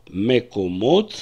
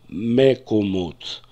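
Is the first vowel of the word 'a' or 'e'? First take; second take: e; e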